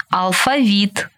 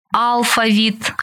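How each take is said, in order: First: АлфаВІТ, stressed on the final syllable; stress on last syllable. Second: АЛфавіт, slow, stressed on the first syllable. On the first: Teacher showing variant stresses to student, final stress on алфавіт. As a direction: land on ВІТ in алфавіт. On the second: Teacher showing variant stresses to student, first-syllable stress on алфавіт. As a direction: stretch АЛ at the start of алфавіт. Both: Shown as a demonstration. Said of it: "Такий наголос ще називають варіантним".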